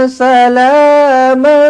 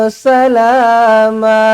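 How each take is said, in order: No difference in how they are said.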